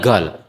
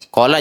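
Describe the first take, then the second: First: The word begins with a g sound. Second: The word begins with a k sound.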